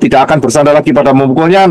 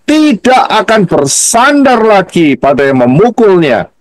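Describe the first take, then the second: First: It is read quickly with flat intonation. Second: It is read slowly with varied intonation. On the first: The reader is rushing and misses the meaning. The speaker calls it wrong. "bacanya nggak ada intonasinya, cepat" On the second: The reader takes care and grasps the meaning. The speaker calls it right. "bacanya pelan-pelan, dikasih intonasi"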